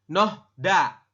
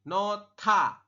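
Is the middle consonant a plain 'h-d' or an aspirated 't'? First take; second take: h-d; aspirated t. First: The h and d are sounded separately. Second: The h and d merge into aspirated t. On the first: This is how the word is written. "Tulisannya nohda" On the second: This is how the word is actually read. "Anda membacanya nota"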